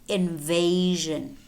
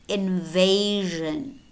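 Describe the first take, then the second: The two takes are said the same way.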